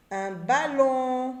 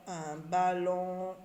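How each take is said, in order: First: Ballon drawn out slowly, the on held long; stretched ballon. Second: Slow ballon with a long on; stretched ballon. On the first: Teacher sounding out ballon for pupils, slow and drawn out. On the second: Teacher sounding ballon again, slow. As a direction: hold the on in ballon. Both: Shown as a demonstration. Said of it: "J'entends on dans ballon".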